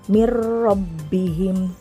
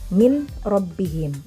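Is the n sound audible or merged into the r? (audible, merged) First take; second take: merged; audible. First: The n merges fully into the following r. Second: The n is pronounced clearly before the r. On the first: The speaker calls it right. "Mirrobbihim, bukan min robbihim" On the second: The speaker calls it wrong. "bukan min robbihim"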